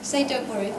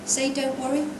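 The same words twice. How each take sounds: First: "don't worry" falling at the end as a statement. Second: "don't worry" rising at the end as a question; questioning tune. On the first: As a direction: let "worry" drop to close the phrase. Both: Shown as a demonstration. Trying the doctor's line twice.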